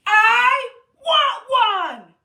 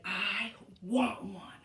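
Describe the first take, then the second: First: Slow, loud, high wailing cry; crying shout. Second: Said in the usual way. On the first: Shown as a demonstration. Teacher wailing with the kids after a deep breath, crying shout. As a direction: howl it like a crying toddler. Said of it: "Take a deep breath". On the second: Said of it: "we have to say".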